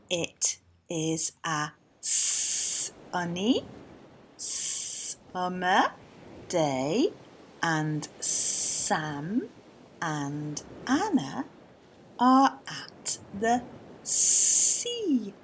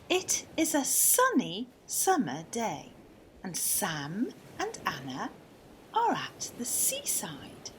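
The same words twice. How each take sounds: First: It is read slowly. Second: It is read at normal speed.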